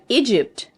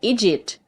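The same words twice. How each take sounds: First: The p sound is clearly pronounced. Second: The p sound is left out. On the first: The speaker calls it right. "you say Egypt" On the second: The speaker calls it wrong. "You don't say Egypt"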